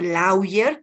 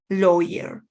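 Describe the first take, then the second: First: It is read letter by letter, Spanish-style. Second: It is pronounced with English sounds. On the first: The speaker calls it wrong. "no se pronuncia lawyer, tal cual se escribe" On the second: The speaker calls it right. "sino es"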